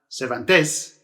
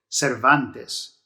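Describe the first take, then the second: First: The stress is not on the middle syllable. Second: The stress is on the middle syllable. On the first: The speaker calls it wrong. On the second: The speaker calls it right. "So you stress this second to last"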